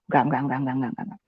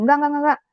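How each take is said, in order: First: Low, hushed refusal under the breath; reenacted private protest, fading to almost nothing; timid muttering. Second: Higher-pitched, repeated refusal; reenacted inner protest, pitched up; protesting to oneself. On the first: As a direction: mutter it so the friend won't hear. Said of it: "saya tidak berani mengatakan itu di depan teman saya". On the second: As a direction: keep refusing in a raised pitch. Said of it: "masih ngomong sendiri saat itu".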